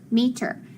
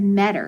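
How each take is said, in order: First: The first vowel is a long E sound. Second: The first vowel is a short E sound. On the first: The speaker calls it right. "So that E is going to be long because it's open" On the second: The speaker calls it wrong. "If I would have moved it, it said meter, and does meter make sense? No"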